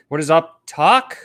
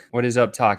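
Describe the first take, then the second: First: "What is up talk?" with the pitch rising at "talk"; rising end on "talk". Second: Said in the usual way. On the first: Shown as a demonstration. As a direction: end the line going up like a question. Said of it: "when my voice up talk goes up". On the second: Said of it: "this is up talk".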